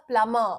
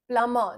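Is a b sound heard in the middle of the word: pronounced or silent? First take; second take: silent; silent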